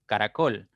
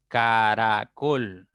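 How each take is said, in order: First: Said in the usual way. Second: "Caracol" slowly as ca - ra - col; syllable by syllable. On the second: Shown as a demonstration. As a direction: stretch "Caracol" into three parts, ca, ra, col. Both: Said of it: "pueden descomponerse en tres sílabas".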